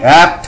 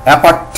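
First: "অ্যাপ্ট" as one syllable ending in pt; joined pt cluster. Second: "অ্যাপার্ট" with a vowel wedged between p and t; wrongly split cluster. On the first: Teacher models the correct reading, "অ্যাপ্ট" with no vowel between p and t. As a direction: close the p straight into t in "অ্যাপ্ট". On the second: Teacher warns against this reading, "অ্যাপার্ট" broken into two syllables. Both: Shown as a demonstration. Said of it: "এরকম উচ্চারণ করবে না".

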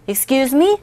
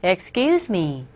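First: "Excuse me?" with the pitch rising on "me", puzzled; rising questioning "Excuse me?". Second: "Excuse me" said flat with a falling end, a polite pardon. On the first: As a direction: ask it, lifting the end. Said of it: "뭐예요?". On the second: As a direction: drop the tune at "me". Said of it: "실례합니다". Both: Shown as a demonstration.

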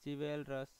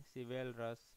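First: चिवेलरस said with a ch sound at the start; चिवेलरस starting with च, as in chai; चिवेलरस, the mistaken ch start; wrong pronunciation. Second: सिवेलरस starting with स, not च; सिवेलरस, s as in sab; corrected pronunciation. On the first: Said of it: "sorry इसको हम लोग बोलेंगे सिवेलरस". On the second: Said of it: "इसको हम लोग बोलेंगे सिवेलरस". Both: Shown as a demonstration.

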